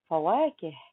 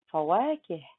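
The two takes are said the same way.

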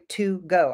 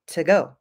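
First: The word 'to' is said fully and clearly. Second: The word 'to' is reduced and weak. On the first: The speaker calls it wrong. "I don't say to go" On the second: The speaker calls it right. "I say to go"

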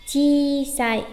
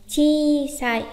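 Both takes have the same delivery.

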